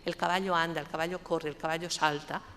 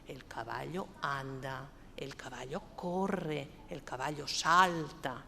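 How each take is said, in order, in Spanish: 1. Se dice de forma plana, sin musicalidad. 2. Se dice con una melodía viva y musical.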